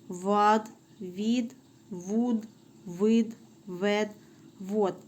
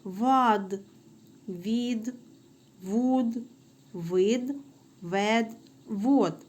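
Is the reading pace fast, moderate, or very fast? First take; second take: very fast; fast. First: The syllables are read at the fastest pace. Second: The syllables are read a little faster. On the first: "Тепер ще швидше" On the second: "але трішечки швидше"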